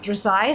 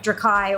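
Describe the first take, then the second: First: The C is said as a soft S sound. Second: The C is said as a hard K sound. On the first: "or a soft C" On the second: "like a hard C"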